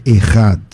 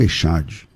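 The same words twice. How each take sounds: First: "Errad", the ch as a guttural rasp; correct Hebrew pronunciation. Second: "Echad", Portuguese sh sound; wrong pronunciation. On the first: Teacher correcting students' pronunciation, guttural Hebrew ch. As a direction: say "Errad" with a throaty h sound. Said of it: "A palavra certa é Errad". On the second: Teacher showing the wrong reading, soft sh. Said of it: "e não Echad". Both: Shown as a demonstration.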